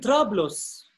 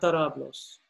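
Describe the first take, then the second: First: The first two consonants are said together, no vowel. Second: A vowel is inserted between the first two consonants. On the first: The speaker calls it right. "On dit" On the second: The speaker calls it wrong. "Avec un micro, ça devient"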